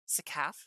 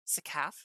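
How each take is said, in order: First: The name is said with an anglicized pronunciation. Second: The name is said with an anglicized pronunciation.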